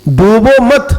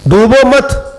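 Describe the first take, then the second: No difference in how they are said.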